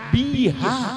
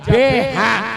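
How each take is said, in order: First: The first vowel is an 'i' sound. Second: The first vowel is an 'e' sound. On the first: The speaker calls it right. "krungu elang jelas biha" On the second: The speaker calls it wrong. "Aja beha"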